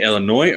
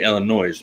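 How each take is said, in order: First: Said in the usual way. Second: Illinois with the last S voiced as a Z; final S sounded. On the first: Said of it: "they dropped it". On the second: Shown as a demonstration. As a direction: say "Illinois" to rhyme with noise. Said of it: "it used to be you could say Illinois".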